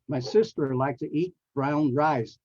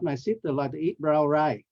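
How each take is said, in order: First: The final consonant sounds are fully pronounced. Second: The final consonant sounds are dropped. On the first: The speaker calls it right. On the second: The speaker calls it wrong.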